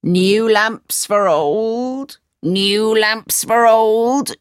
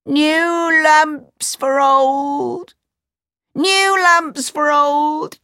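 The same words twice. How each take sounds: First: Slow street-seller call; slow vendor's call. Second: Crying out. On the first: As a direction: hawk the lamps down the street. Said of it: "he called out". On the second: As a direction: call up to the palace. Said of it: "He stood outside the door and cried". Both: A narrator's reading.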